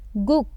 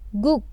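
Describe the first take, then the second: Both takes have the same delivery.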